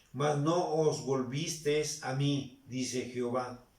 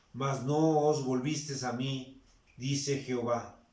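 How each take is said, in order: The two takes are said the same way.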